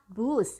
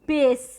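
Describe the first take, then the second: First: The word is said with a u vowel. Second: The word is said with an i vowel. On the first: This is the form borrowed from the original language. The speaker calls it right. "Jawabannya adalah bus" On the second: This is how people commonly say it. The speaker calls it wrong. "kita sering membacanya, melafalkannya"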